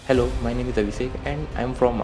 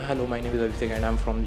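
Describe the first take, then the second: First: The sentence is spoken slowly and calmly. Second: The sentence is spoken quickly and hurriedly. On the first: The speaker seems knowledgeable and confident. The speaker calls it right. "आराम से जब तुम speak slowly करते हो" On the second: The speaker seems unprepared and unsure. The speaker calls it wrong. "तुम ज़्यादा तेज़ बोलते हो"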